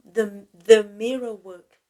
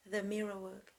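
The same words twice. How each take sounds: First: Mirror work called out loud and strong; naming the technique. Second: Said in the usual way. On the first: Shown as a demonstration. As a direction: announce the mirror work as a title. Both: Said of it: "this technique called".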